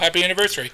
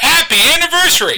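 First: It is said flatly, without enthusiasm. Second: It is said with lively excitement.

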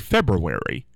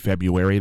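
First: The r after 'Feb' is clearly pronounced. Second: The r after 'Feb' is left out. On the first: "Because it's F-E-B-R, so it would have to be February" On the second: "most people say February"

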